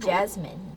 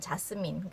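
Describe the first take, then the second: First: It is said with an American vowel and z sound. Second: It is said with Korean vowels and an s sound. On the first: The speaker calls it right. "에 발음으로 돼서 jasmine" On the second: The speaker calls it wrong. "우리는 자스민"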